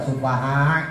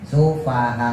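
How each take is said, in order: First: The ending is pressed too hard into a throat sound. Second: The ending closes with a light glottal stop. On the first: The speaker calls it wrong. "Jangan terlalu neken juga, ... nah itu jadi ain, nggak boleh" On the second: The speaker calls it right. "tetap di belakangnya ada penekanan"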